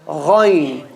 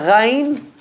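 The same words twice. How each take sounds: First: The letter is said heavy and full. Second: The letter is said light and thin. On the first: The speaker calls it right. "ghain is a heavy letter" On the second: The speaker calls it wrong. "So it's not ghain"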